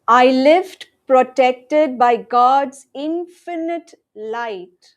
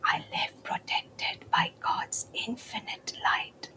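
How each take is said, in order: First: It is said in a loud voice. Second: It is said in a whisper. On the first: "Let's affirm together loudly first" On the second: "In a whisper now"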